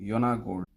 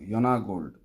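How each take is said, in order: No difference in how they are said.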